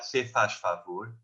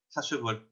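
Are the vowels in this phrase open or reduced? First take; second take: open; reduced. First: The vowels are full and open. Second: The vowels are reduced and syllables swallowed. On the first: "com esses vogais mais abertas" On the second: "nós em Portugal dizemos"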